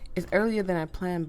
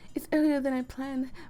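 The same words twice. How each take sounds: First: It is read in the reader's natural voice. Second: It is read in a put-on character voice. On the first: The speaker calls it wrong. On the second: The speaker calls it right.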